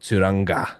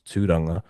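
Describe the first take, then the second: First: The ng is said with a hard g. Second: The ng is one soft nasal sound. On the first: The speaker calls it wrong. "They go with the hard G" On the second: The speaker calls it right. "my actual full name is"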